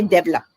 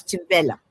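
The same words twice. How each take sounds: First: Develop stressed on the first syllable, DEV-elop; wrong stress demo. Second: Develop as di-VEL-op, stress on the second syllable; corrected pronunciation. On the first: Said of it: "That's wrong". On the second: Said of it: "That's wrong. It's develop". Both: Shown as a demonstration.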